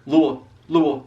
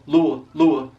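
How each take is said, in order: Both takes have the same delivery.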